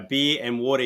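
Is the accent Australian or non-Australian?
Australian. It is said in an Australian accent. This is how people here say it. "we like our um our beer and water here"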